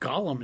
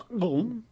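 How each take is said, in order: First: The name is said as two clear syllables. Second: The name is said like one gulping syllable. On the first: The speaker calls it wrong. "it's not Gollum" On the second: The speaker calls it right. "which should be pronounced Gulm"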